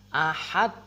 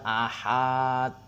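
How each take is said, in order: First: The vowel is short with a bounced final d. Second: The vowel is long with a flat final d. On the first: The speaker calls it right. "ini jangan pernah meninggalkan qalqalahnya" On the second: The speaker calls it wrong. "kesalahan memanjangkan huruf H. Nah, dibaca panjang"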